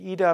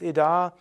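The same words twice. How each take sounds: First: The vowels are short and plain. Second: The vowels are held long. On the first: This is the casual everyday pronunciation. The speaker calls it wrong. "eigentlich ist es nicht Ida" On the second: This is the proper Sanskrit pronunciation. The speaker calls it right. "sonst Ida"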